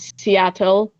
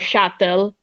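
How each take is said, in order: First: It is said in a standard American accent. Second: It is said in a Filipino accent, like shuttle.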